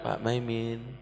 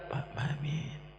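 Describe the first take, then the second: First: The name is called at moderate volume. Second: The name is said softly and quietly. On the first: The person being called is closer. "Kalau Pak Maiminnya lebih dekat" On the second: The person being called is very near. "Kalau Pak Maimin lebih dekat"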